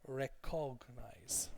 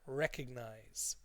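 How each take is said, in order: First: The stress falls on the middle syllable. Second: The stress falls on the first syllable. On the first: The speaker calls it wrong. "overemphasize the cog" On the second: The speaker calls it right. "the stress is on rec"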